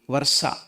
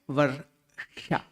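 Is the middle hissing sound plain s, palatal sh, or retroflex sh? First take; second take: plain s; retroflex sh. First: The middle sound is a plain s. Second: The middle sound is a retroflex sh. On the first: The speaker calls it wrong. "It will not be varsa" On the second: The speaker calls it right. "It should be the retroflex or murdhanya"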